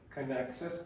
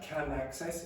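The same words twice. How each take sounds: First: The word can has a short, weak vowel. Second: The word can has a full, open vowel. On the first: The speaker calls it right. "it's can access" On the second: The speaker calls it wrong. "not can access"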